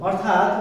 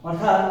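No difference in how they are said.

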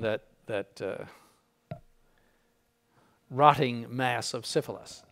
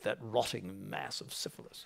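First: It is spoken in the speaker's ordinary accent. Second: It is spoken in an English accent.

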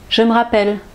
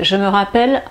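First: A vowel of 'je me' is dropped. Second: Every vowel of 'je me' is pronounced.

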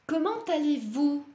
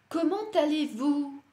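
The two takes are said the same way.

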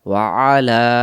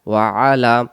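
First: The words stay apart and the ayn stays. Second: The words stay apart and the ayn stays.

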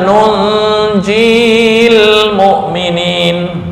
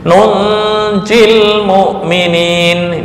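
First: The vowel before the l is drawn out long. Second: The vowel before the l is kept short. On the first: The speaker calls it wrong. "bukan nunjil mu'minin" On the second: The speaker calls it right. "tapi nunjil mu'minin"

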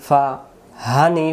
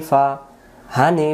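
The two takes are said the same way.

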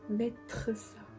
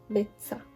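First: The ending of mettre is fully pronounced. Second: The ending of mettre is dropped before ça. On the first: "Instead of mettre ça" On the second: "그래서 우리는 이렇게 말해요"

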